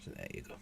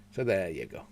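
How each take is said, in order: First: Breathy whispered aside; whispering. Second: Said in the usual way. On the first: Real, not acted. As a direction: whisper it to yourself. Whispered take before the spoken one.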